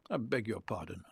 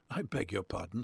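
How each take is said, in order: First: "I beg your pardon" with the tune falling firmly at the end; indignant pardon. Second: "I beg your pardon" with the tune rising at the end, asking; a puzzled question, rising on "pardon". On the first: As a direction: shut him down, falling flat on "pardon". Woman now indignant, repeating. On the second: Woman puzzled by odd remark. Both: A narrator's reading.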